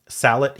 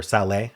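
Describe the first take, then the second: First: "salet" ending in a clear T; salet with sounded T. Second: "salé" ending in an open AY; salé, French-style ending. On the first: Offering viewers one way to say the word, "salet" with sounded T. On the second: Offering viewers another way to say it, "salé" ending in AY. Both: Shown as a demonstration. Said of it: "however you wanna say that".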